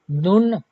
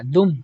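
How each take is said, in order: First: दुन said slowly with a clear n; wrong reading. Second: दुम with an m sound, not n; correct reading. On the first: Teacher shows students the wrong reading दुन. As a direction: sound दुन with a plain n, the way not to read it. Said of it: "दुन नहीं पढ़ना". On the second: Teacher gives students the right m sound in दुम. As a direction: close the lips on दुम to make the m. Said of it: "मीम निकालना". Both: Shown as a demonstration.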